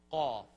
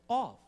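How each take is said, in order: First: "cough" punched from the back of the throat, no F; Arabic qaf-like "cough", short and louder; throaty cough letter. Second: "Cough" popped high and loud from the throat; student's cough attempt. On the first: Shown as a demonstration. Teacher with a pretend bad cold, throaty "cough". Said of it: "I have a really bad". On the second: Student copying the teacher's letter, high loud "Cough". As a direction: imitate a learner punching "Cough", higher and louder. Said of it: "And she said".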